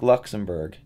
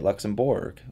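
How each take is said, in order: First: The ending is said the usual way, like 'burg'. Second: The ending is exaggerated to sound like its spelling.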